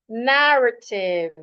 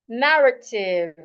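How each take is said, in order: No difference in how they are said.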